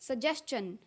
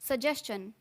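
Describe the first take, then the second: Both takes have the same delivery.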